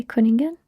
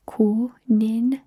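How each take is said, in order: First: Said in the usual way. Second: "Kuningen" slowly in separate parts, ku - nin - gen; syllable-by-syllable demo. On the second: Shown as a demonstration. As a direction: break "Kuningen" up for a learner. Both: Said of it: "Can you say Kuningen?".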